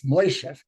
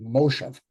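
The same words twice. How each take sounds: First: Moishev with an oi diphthong, MOI-shev; Yiddish pronunciation. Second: Moshev with a plain o, MO-shev; plain o vowel. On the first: Teacher contrasting Yiddish vowel forms, Moishev with oi. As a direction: say Moishev with oi in the first syllable. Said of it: "It does not explain why it's Moishev". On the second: Teacher contrasting Yiddish vowel forms, Moshev with plain o. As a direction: say Moshev with a simple o, no oi. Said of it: "instead of M". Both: Shown as a demonstration.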